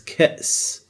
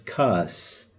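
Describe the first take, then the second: First: It is said with a glottal stop. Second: It is said with no glottal stop. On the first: The speaker calls it right. "with the Hamza, it's Ka'is" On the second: The speaker calls it wrong. "if you don't put the Hamza on top, if you ignore this, you will read it as Kas"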